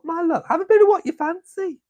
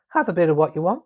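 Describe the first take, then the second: First: Put-on much higher, playful sing-song delivery of an old saying; high, teasing sing-song. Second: Said in the usual way. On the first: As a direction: lift it way up like a cheeky auntie.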